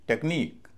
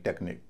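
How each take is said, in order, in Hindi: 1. ज़ोर आख़िरी अक्षर पर है। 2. ज़ोर पहले अक्षर पर है। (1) "स्ट्रेस अंतिम सिलेबल पर पड़ेगा" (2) "न कि"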